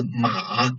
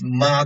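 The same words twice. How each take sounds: First: "ma" drawn out, dipping then rising; third tone. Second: "ma" held level, no dip; first tone. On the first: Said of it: "mother could be a horse". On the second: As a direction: Mandarin first-tone "ma", level pitch. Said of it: "the first tone". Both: Shown as a demonstration.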